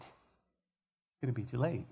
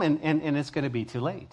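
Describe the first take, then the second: First: Much softer, slow, sorrowful repeat; sorrowful hush. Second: Said in the usual way. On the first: Real, not acted. Preacher to listeners, grieving softly over the lost. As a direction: let the words sink in grief.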